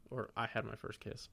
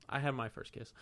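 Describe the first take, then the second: First: Said in the usual way. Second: Had leaned on a little, I had my first kiss; proud emphasis on had; stress on had. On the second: Shown as a demonstration. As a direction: hit the word had.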